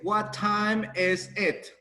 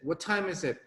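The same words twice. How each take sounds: First: Each word is said separately with breaks. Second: The words run together into one linked stream. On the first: The speaker calls it wrong. "we don't say what time is it" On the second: The speaker calls it right. "you need to join it"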